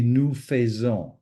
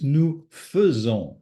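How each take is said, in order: First: "faisons" wrongly said as "fay-zon"; mispronounced faisons. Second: "faisons" carefully said as "fuh-zon"; schwa in faisons. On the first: Teacher showing learners the mistake to avoid, mispronounced "faisons" as "fay-zon". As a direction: give "faisons" an ay sound in its first syllable. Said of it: "the wrong thing to say would be". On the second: Teacher correcting the mistake, "faisons" with an uh sound. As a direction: give "faisons" an uh in its first syllable, clearly. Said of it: "It's an E". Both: Shown as a demonstration.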